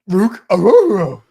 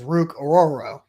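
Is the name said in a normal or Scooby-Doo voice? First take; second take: Scooby-Doo; normal. First: It is said in a Scooby-Doo voice. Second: It is said in a normal voice.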